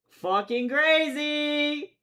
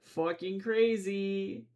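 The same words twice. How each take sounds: First: High, loud and drawn out; exaggerated excited shout; shouted repeat. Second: Said in the usual way. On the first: Shown as a demonstration. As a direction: yell it the second time, stretched long.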